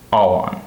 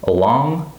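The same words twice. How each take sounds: First: "all on" with ALL stressed, lighter "on"; first-word stress. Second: "Along" rising on stressed LONG; light start, strong second syllable in "Along". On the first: Teacher replaying the contrast, "all on" stressed on first word. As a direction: lean on "all" in "all on". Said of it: "the first word is stressed". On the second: Teacher replaying the contrast, "Along" stressed on second syllable. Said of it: "the second syllable is stressed". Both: Shown as a demonstration.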